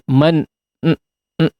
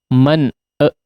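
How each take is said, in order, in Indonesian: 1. Bunyi n dipanjangkan dan ditahan. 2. Ada bunyi vokal tambahan setelah n. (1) "jangan kemudian jadi man n" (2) "e ya ada e-nya"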